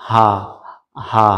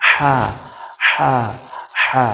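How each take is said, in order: First: হা said as an ordinary light h, not from the throat; the wrong হা, a plain breathy h; plain round ha. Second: হা pushed from the throat with friction. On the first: Teacher to students, showing the wrong হা as a plain h. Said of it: "ওইটা ছিল". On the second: Teacher to students, showing the correct throaty হা. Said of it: "আর এটা হবে". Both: Shown as a demonstration.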